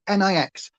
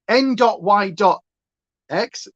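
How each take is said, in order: First: It is said as a single word. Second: Each letter is said separately.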